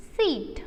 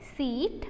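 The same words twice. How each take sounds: First: Seat said with a falling tune, closing. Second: Seat said with a rising tune. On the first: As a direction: let seat fall to finish. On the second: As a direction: lift Seat as if the list goes on. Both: Shown as a demonstration. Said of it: "मैंने जैसे उसको pronounce किया".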